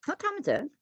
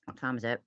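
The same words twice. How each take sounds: First: High startled question; suddenly alarmed; surprised. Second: Said in the usual way. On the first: Real, not acted.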